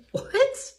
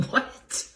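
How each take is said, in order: First: Much higher, rising in shock; shocked disbelief. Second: Whispered in disbelief; stunned whisper. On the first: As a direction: shoot it up high in disbelief. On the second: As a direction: breathe it out, stunned. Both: Retold or imitated. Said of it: "I was absolutely stunned".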